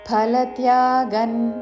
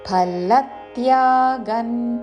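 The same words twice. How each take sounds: First: The syllable 'la' is not stressed. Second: The syllable 'la' is stressed. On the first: The speaker calls it wrong. "ఫలత్యాగన్ అని కాదు" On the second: The speaker calls it right. "లా మీద ఆఘాతతో"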